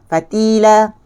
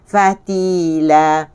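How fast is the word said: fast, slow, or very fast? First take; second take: very fast; fast. First: The word is said very quickly. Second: The word is said quickly. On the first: "Kalau laju lagi" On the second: "Kalau kita sebut laju"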